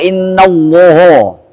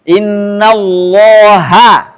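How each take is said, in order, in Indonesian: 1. Bunyi h di akhir dibaca tebal dan berat. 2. Bunyi h di akhir dibaca tipis dan ringan. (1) "Enggak boleh" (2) "haknya ah tipis"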